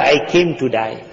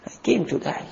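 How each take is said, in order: First: Said in the usual way. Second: Much softer echo of the vow; quiet, resigned repeat; fading repeat. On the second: Acted. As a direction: let it fall away softly.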